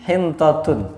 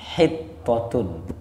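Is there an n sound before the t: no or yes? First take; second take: yes; no. First: An n sound comes before the t. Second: It has a double t with no n sound. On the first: It is a twisted version of the commanded word. The speaker calls it wrong. "dipelintir jadi hintotun" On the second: It is the word that was commanded, asking forgiveness. The speaker calls it right. "Padahal Allah nyuruh apa?"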